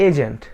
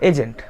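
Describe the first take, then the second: The two takes are said the same way.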